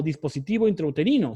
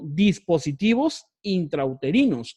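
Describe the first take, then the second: First: Said in the usual way. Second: Slow, leaning on the S of "dispositivos" and "intrauterinos"; plural stressed. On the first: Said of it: "sino como dispositivos intrauterinos". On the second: Shown as a demonstration. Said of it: "no está escrita como dispositivo intrauterino". (enfatizando la S final de "dispositivos intrauterinos")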